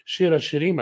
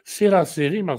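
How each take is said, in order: First: The words begin with a 'sh' sound. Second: The words begin with an 's' sound. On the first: "если в синагоге марокканской буду читать" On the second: "в египетской синагоге скажут"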